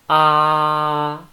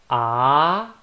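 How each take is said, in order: First: The pitch stays level throughout. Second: The pitch rises from low to high. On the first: "it's flat" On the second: "from down to up"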